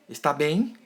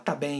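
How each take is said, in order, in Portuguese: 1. A sílaba inteira 'es' é pronunciada. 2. A primeira sílaba 'es' é omitida. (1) "em vez de está" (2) "hoje também se fala, por exemplo, tá"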